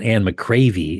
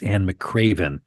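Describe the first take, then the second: First: The surname ends in a vowel sound. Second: The surname ends in an n sound. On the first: The speaker calls it wrong. "it's not Anne McCravey" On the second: The speaker calls it right. "it's Anne McCraven"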